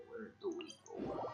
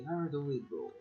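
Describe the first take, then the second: First: Whisper. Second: Said in the usual way. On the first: Real, not acted. Whispered repeat of own question.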